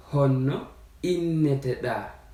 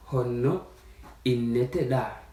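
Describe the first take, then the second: No difference in how they are said.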